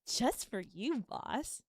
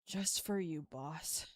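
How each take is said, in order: First: The tone sounds playful and flirty. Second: The tone sounds let down and disappointed. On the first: "And then flirty"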